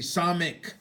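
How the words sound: The second vowel is an 'ee' sound. This is how the other group says it. "they say samik"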